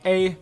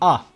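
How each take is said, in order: First: The vowel is said as ay. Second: The vowel is said as ah. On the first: The speaker calls it wrong. "There's no A" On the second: The speaker calls it right. "there's ah"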